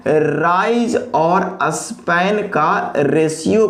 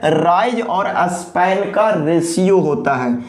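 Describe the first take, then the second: First: Very slow, each word set apart, rising at the end; slow emphatic repeat. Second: Said in the usual way. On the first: Shown as a demonstration. Teacher repeating the key phrase to students, very slowly. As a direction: drag it out so the class can follow. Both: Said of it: "किसका ratio होता है?".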